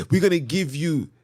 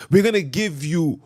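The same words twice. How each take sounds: The two takes are said the same way.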